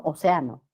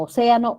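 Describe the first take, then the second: First: Océano as o-ce-A-no, lower; grave stress. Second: Océano as o-CE-a-no, high on CE; esdrújula stress. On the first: Teacher recalls both forms, océano stressed on A. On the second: Teacher recalls both forms, océano stressed on CE. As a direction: punch CE in océano. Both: Shown as a demonstration. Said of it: "tildación optativa".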